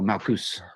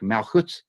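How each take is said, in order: First: The word ends with an s sound. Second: The word ends with a t sound. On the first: "an us sound" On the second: "like a T sound"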